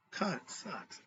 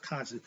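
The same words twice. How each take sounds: First: "conscience" said as CON-SCIENCE, second part like "science"; split as con-science. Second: "conscious" in the everyday way, ending in a soft "shus"; pronounced CON-shus. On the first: Teacher explains the ancients' word to students, split as con-science. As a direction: sound out "conscience" in two parts, con plus science. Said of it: "pronounced conscious, but it means conscience". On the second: Teacher gives students the modern pronunciation, "conscious" as KON-shus. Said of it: "pronounced conscious". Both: Shown as a demonstration.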